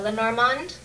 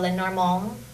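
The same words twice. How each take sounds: First: The final D is clearly pronounced. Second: The final D is almost silent. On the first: "I say uh" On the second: "or almost no D at all"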